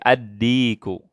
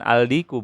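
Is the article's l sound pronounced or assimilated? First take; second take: assimilated; pronounced. First: The l merges into a doubled d sound. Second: The article's l sound is clearly pronounced. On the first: The speaker calls it right. "tapi ad-diku" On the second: The speaker calls it wrong. "bukan aldiku"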